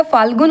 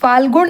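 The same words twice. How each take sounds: First: फाल्गुन ending in plain dental n; correct फाल्गुन. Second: फाल्गुन ending in retroflex ण; wrong फाल्गुन. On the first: Teacher gives the correct word, फाल्गुन with plain n. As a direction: finish फाल्गुन on an ordinary न. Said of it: "होता है". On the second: Teacher shows the mistake, फाल्गुन with retroflex n. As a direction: curl the tongue on the last n of फाल्गुन. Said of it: "नहीं होता है". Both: Shown as a demonstration.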